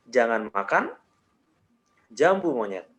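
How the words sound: There is a pause after makan. "jeda yang berikutnya gue kasih di setelah makan"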